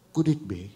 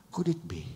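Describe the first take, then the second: First: Said in the usual way. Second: Unvoiced hushed repeat; whispered. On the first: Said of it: "repeated question". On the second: Real, not acted. Pastor repeating the question to the church, whispered. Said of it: "repeated question, whispered".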